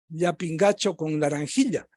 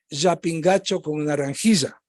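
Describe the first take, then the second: First: The ll sounds like a softened affricate. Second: The ll sounds like a buzzing zh. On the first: This is how Quito speakers aged twenty to fifty say it. "a lo quiteño de menos de cincuenta y más de veinte" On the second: This is how Quito speakers over fifty say it. "a lo quiteño mayor de cincuenta"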